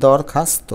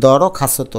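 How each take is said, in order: First: দরখাস্ত with closed syllables, "dawr-khas-to"; no vowel after r or s in দরখাস্ত; three syllables in দরখাস্ত, dawr-khas-to; with hasanta. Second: দরখাস্ত with every vowel sounded, "dawrokhasoto"; five syllables in দরখাস্ত, daw-ro-kha-so-to; without hasanta. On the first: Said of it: "যদি হসন্ত দিই". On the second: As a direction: add an o after r and s in দরখাস্ত. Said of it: "তা না হলে উচ্চারণ হয়ে যাবে". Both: Shown as a demonstration.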